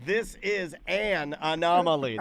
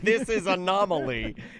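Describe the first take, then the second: First: The word 'an' is clearly pronounced before 'anomaly'. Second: The word 'an' is dropped before 'anomaly'. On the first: The speaker calls it right. "There's two fucking words there" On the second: The speaker calls it wrong. "It's not this is anomaly"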